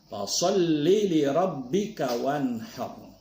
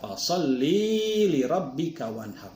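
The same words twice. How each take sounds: First: The vowel in 'li' is short. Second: The vowel in 'li' is long. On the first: The speaker calls it right. "ini li-nya pendek" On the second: The speaker calls it wrong. "maka itu keliru... Karena ada tambah iya itu"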